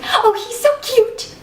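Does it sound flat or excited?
excited. It sounds excited and gushing, showing a crush.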